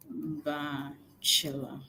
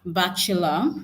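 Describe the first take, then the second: First: "Bachelor" slow and low, split after the first syllable. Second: Said in the usual way. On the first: Shown as a demonstration. Teacher showing the schwa in bachelor, slow syllable by syllable. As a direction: softly break "Bachelor" into drawn-out parts. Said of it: "You notice in bachelor, we're using the schwa". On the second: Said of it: "You notice in bachelor".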